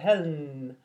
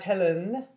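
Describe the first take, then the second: First: The second syllable has no vowel. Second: The second syllable has a full vowel. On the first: The speaker calls it right. "but Helen. The second syllable has no vowel" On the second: The speaker calls it wrong. "is not Helen"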